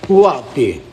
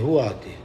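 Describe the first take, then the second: First: Louder call into the void; a loud call to absent viewers. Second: Said in the usual way. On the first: Real, not acted. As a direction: shout it out to whoever's listening. Calling out to the live chat.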